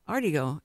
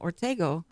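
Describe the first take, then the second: First: The name begins with an 'ar' sound. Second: The name begins with an 'or' sound. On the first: This is how the family said the name growing up. The speaker calls it wrong. "We pronounced it Artigo" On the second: This is the proper Spanish form of the name. The speaker calls it right. "why are y'all calling Ortega Artigo?"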